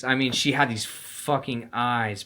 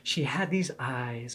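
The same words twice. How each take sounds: First: "fucking" pressed hard and drawn out; slow, weighty stress on "fucking". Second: Said in the usual way. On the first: Shown as a demonstration. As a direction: lean into "fucking" in "these fucking eyes". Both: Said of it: "And I don't mean, like".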